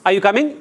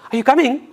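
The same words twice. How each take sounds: First: It sounds like a plain yes-or-no question. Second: It sounds happy and excited, not questioning. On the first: The speaker wants a yes or no answer. "Yes or no?" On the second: The speaker is glad the listener is coming. "It's not the question. It's I'm. I'm showing happiness that you are coming"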